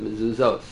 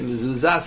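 First: The final vowel follows the usual form of the word. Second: The final vowel is deliberately changed from the usual form. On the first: The speaker calls it right. "instead of Mezuzos" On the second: The speaker calls it wrong. "he'll say Mezuzas instead of"

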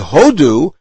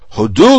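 First: The stress is on the first syllable. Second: The stress is on the second syllable. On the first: It means India. The speaker calls it wrong. "which means India" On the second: It means give thanks. The speaker calls it right. "says it properly, which is the word hodu with the accent on the second syllable"

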